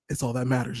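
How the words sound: It is said in an exaggerated put-on voice.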